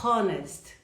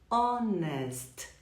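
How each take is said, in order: First: The word begins with a pronounced h. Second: The word begins with a silent h. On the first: The speaker calls it wrong. "nós não falamos honest" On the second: The speaker calls it right. "Outra que ele não é pronunciado"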